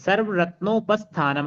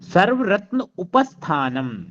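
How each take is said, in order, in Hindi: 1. दो शब्द मिलकर एक हो जाते हैं, ओ की ध्वनि के साथ। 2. दो शब्द अलग-अलग बोले जाते हैं, उ की ध्वनि के साथ।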